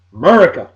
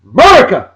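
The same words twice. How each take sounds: First: Said in the usual way. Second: Loud, high whooping shout; yelled out. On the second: Pretend. Rousing Brian Lawson with his own catchword, yelled out. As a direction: belt out MURICA with a sharp fall. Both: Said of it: "this'll make you yell out".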